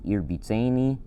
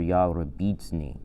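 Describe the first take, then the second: First: The word is run together as one unit. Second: The word is slowed and split into syllables.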